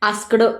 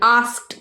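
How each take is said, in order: First: The word ends with a d sound. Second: The word ends with a t sound. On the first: The speaker calls it wrong. "आस्कड नाही" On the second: The speaker calls it right. "थोडस ट असा उच्चार करायचा"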